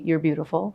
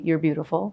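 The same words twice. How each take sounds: First: It is spoken in an American accent. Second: The same.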